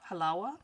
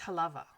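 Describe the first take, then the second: First: The middle consonant is a W sound. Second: The middle consonant is a V sound. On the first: It is the Arabic word meaning sweetness. "this is also an Arabic word" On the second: It is the Hawaiian reading of the name. "in Hawaiian it's halava. The W is pronounced as a V"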